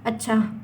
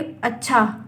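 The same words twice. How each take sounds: First: It sounds like a plain acknowledgment of news. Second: It sounds pleased and appreciative.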